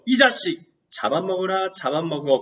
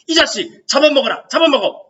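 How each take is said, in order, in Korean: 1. 차분하고 흥분되지 않은 어투입니다. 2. 격앙되고 기세등등한 어투입니다. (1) "이런 어투가 아니죠" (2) "이런 어투예요. 격앙되고 기세등등한 어투입니다"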